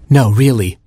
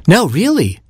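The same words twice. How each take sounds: First: Said in the usual way. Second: Much higher, insistent; high firm little bird; higher robin voice. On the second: Acted.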